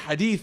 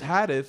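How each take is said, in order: First: The word is said with Arabic sounds. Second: The word is said with English-style sounds. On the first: The speaker has really studied the subject. The speaker calls it right. "instead of saying hadith" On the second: The speaker has not really studied the subject. The speaker calls it wrong. "When they mispronounce things"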